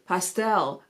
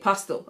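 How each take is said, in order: First: It is said with an American accent. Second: It is said with a British accent.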